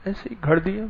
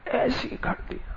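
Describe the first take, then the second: First: Said in the usual way. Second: Breathy whispered repeat, under the breath; whispered aside. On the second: Real, not acted. To the audience about the made-up interview, whispered. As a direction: let the words fall away into a whisper.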